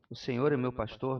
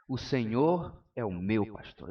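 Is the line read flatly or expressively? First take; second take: flatly; expressively. First: It is read in a flat, plain way. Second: It is declaimed with lively, expressive delivery.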